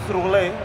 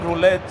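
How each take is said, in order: First: The word ends without a T sound. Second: The word ends with a clear T sound. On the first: The speaker calls it right. "it's roulette" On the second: The speaker calls it wrong. "not even roulette. So you put in the T"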